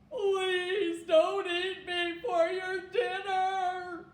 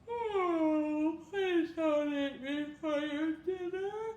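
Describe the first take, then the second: First: It is said in a shocked tone. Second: It is said in a tired tone.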